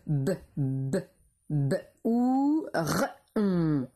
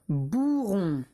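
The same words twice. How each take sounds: First: "B, b, b, ou, r, on" as isolated sounds; sounded out. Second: Said in the usual way. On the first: Shown as a demonstration. Teacher dictating the fourth syllable, each sound apart. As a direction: repeat the b alone, then ou, r, on separately. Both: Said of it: "Quatrième syllabe".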